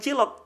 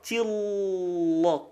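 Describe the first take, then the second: First: The L is thin, tongue back not raised. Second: The L is thick, tongue back raised. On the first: The speaker calls it wrong. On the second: The speaker calls it right.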